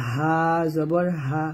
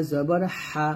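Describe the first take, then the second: First: হা breathed softly, very slow; slow হা জবর হা with a light breath; soft Arabic হা. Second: হা pushed from the throat with pressure; throaty Arabic হা; pressed হা. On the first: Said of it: "এরকম". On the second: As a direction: press হা in জবর হা. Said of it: "চাপ দিয়ে একটু". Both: Shown as a demonstration.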